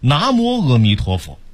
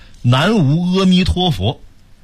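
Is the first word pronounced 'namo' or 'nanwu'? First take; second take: namo; nanwu. First: The first word is read as 'namo'. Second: The first word is read as 'nanwu'. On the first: "要念出来叫" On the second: "老写一句话叫"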